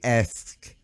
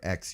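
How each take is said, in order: First: The word ends with the sounds s then k. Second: The word ends with the sounds k then s. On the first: "ask versus ax" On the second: "ask versus ax"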